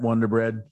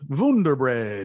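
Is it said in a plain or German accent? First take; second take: plain; German. First: It is said in a plain accent. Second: It is said in a German accent.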